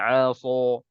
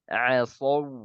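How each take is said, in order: First: The word is pronounced with a thick, heavy sound. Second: The word is pronounced with a thin, light sound. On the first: The speaker calls it wrong. "jangan aso" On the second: The speaker calls it right. "harus baca asaw ... Dia tipis"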